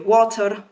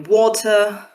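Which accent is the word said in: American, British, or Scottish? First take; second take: Scottish; British. First: It is said in a Scottish accent. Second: It is said in a British RP accent. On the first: "For a Scot, it will be water" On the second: "received pronunciation speaker, it will be water"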